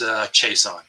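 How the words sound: The name is said with English pronunciation. "in plain English, it's Chiasson"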